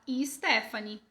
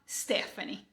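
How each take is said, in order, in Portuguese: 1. Um som de vogal extra vem antes do s. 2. O nome começa direto com o som do s. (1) "A gente fala" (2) "A gente não fala"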